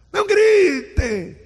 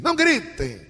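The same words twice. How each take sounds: First: Much higher, louder and slow shout; shouting "Não gritem!" slowly and loud. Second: High, sharp scold; a light mock yell of a parent; mock parental scold. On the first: Shown as a demonstration. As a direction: yell it at the kids, hypocritically. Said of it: "Você diz isso gritando". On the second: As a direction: scold the kids without much force. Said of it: "é como dizer para os filhos".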